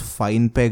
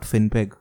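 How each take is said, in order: First: The first syllable sounds like 'fine'. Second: The first syllable sounds like 'fin'. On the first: The speaker calls it right. "pronounce FinePeg" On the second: The speaker calls it wrong. "and not FinPeg"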